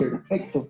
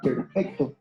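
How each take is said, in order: First: The stress is on the second syllable. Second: The same.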